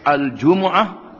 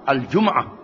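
First: The m is followed by an u vowel. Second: The m is followed by no vowel. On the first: "baik di depan mim" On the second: "dengan mati"

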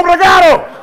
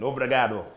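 First: It is said in an angry, shouting tone. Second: It is said in a calm, plain tone.

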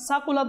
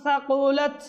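First: The first consonant is a plain 's' sound. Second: The first consonant is a 'th' sound. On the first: The speaker calls it wrong. "সাকুলাত বললে সিন হয়ে যাবে" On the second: The speaker calls it right. "সা রয়েছে সেখানে"

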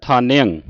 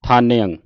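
No difference in how they are said.

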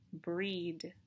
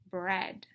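First: The vowel is a long 'ee' sound. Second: The vowel is a short 'e' sound. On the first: The speaker calls it wrong. "I could read it like this, breed. But that wouldn't match this picture" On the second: The speaker calls it right. "and so I would try again"

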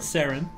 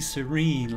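First: The name is said like 'Saren'. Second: The name is said like 'serene'. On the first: The speaker calls it wrong. "I mispronounced his name in the first reactions" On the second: The speaker calls it right. "But it's actually serene, like chill"

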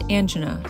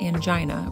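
First: The i is short. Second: The i is long. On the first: The speaker calls it right. "correctly pronounced angina, short I" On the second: The speaker calls it wrong. "not angina"

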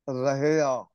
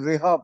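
First: The word is said in three syllables, ra-hi-aa. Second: The word is said in two syllables, ri-haa. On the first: The speaker calls it right. "Exact word ਬਣੇਗਾ ਰਹੇ ਆ" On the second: The speaker calls it wrong. "ਇਹਨੂੰ ਬਹੁਤ ਸਾਰੇ ਰਿਹਾ ਪੜ ਜਾਂਦੇ ਨੇ, ਗਲਤ ਉਚਾਰਨ ਹੈ"

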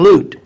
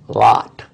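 First: The vowel is a long 'oo' as in 'loot'. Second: The vowel is short, like 'o' in 'lot'. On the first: This is how the name would sound if spelled with two O's. "if you put two O's, it would have been Lut" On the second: This is how the name is commonly said today. "which we pronounce Lot with one O"

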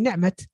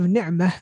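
First: The word ends with a t sound. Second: The word ends with a soft h sound. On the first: The speaker calls it wrong. "they say ni'mat" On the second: The speaker calls it right. "So instead of ni'mah"

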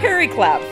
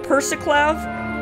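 First: No 's' sound comes before the ending. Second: An 's' sound comes before the ending. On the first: The speaker calls it right. "there is no C, it is an R" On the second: The speaker calls it wrong. "I've been calling it Persiclav"

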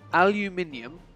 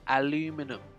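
First: The word is pronounced the British way. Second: The word is pronounced the American way. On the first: "is how it's pronounced in the UK" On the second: "where they pronounce it aluminum"

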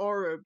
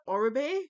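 First: The name is said to rhyme with Frub. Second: The name is said not rhyming with Frub. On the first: This is the speaker's own habitual pronunciation. "I've always pronounced it Orub" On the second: This is how most people pronounce it. "most people pronounce it Orube"

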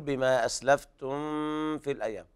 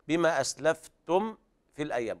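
First: The m before f is hidden and blended. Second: The m before f is clear, without nasal hum. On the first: The speaker calls it wrong. "بعض الناس يقرأ لحنا يخفي الميم عند الفاء" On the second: The speaker calls it right. "على سكون الميم وعدم غنها لأن بعدها فاء"

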